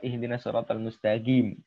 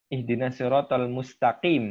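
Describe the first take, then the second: First: Mustaqim has a g sound. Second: Mustaqim has a deep q sound. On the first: "dengan G"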